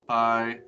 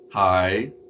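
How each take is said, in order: First: The syllable has no distinct pitch contour. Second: The pitch rises on the syllable. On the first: "no tone" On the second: "an up tone"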